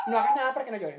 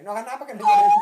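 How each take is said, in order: First: Said in the usual way. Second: Mock hushing, repeated much louder. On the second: Adult hushing a fallen child, repeated louder as a joke. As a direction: push the repeat out louder, half-joking.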